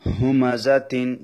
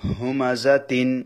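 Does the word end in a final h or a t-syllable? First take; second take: t-syllable; t-syllable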